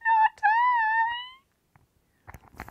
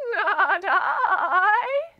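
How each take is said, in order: First: It is said in a high voice. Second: It is said in a shaky voice.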